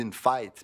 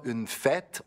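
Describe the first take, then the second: First: "fête" diphthongized, the è gliding like "faite"; Québécois fête. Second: "fête" with a pure open è, Paris style; standard French fête. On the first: Explaining Québécois vowels, the joual "fête" diphthongized. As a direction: stretch "fête" into a Québécois glide, a-è. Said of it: "on dit une fête". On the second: Explaining Québécois vowels, the French "fête" said pure. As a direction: say "fête" flat, no glide, like in France. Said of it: "on dit pas une fête". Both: Shown as a demonstration.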